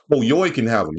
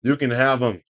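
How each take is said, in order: First: Yoy said as "yoy", rhyming with boy, mocking the misspelling; reading the typo aloud. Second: Said in the usual way. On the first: Shown as a demonstration. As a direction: say Yoy with an oy sound instead of you.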